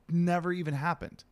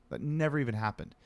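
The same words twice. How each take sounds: First: "never" pushed higher with "happened" trailing off; stress on never. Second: Said in the usual way. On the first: Shown as a demonstration. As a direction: lift "never" high in disbelief.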